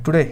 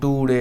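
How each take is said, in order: First: The word is said quickly and crisply. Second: The word is said slowly and drawn out. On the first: The speaker calls it right. "Fast में पढ़ना है... today कुछ इस प्रकार" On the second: The speaker calls it wrong. "मतलब slowly नहीं पढ़ना है इसको, टुडे ऐसे नहीं"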